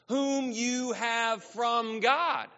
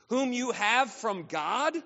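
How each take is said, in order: First: It is read more slowly and deliberately. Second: It is read at a normal, quicker pace.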